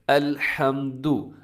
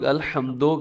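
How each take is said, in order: First: The word ends with a clear 'u' vowel. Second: The word ends with an 'o' vowel. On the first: The speaker calls it right. "यहाँ पहला लफ्ज़ देखिएगा" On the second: The speaker calls it wrong. "अक्सर लोग अल्हम्दो कर देते हैं"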